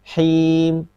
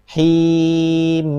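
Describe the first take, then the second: First: The final m is cut off abruptly. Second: The final m flows on too long. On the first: "Kalau syiddah itu seperti ini" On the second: "Juga rokhawah"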